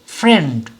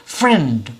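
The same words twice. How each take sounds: First: The word is said in a single beat. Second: The word is said in a single beat.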